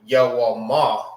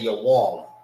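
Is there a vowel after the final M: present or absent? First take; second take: present; absent. First: The word ends with an audible final vowel. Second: The word ends on the M sound. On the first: The speaker calls it wrong. "You don't say Yawama because it's not written like that" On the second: The speaker calls it right. "You see you don't say the A at the end"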